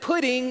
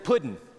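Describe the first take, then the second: First: The word ends with an 'ng' sound. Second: The word ends with a plain 'n' sound. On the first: "Is it pudding" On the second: "or is it puddin'?"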